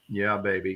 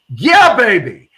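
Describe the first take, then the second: First: It is said flatly, without energy. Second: It is said with lively, enthusiastic energy. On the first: The speaker calls it wrong. "not not just go yeah, baby, because that's not going to get you there" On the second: The speaker calls it right. "embrace it with your tonality and your enthusiasm"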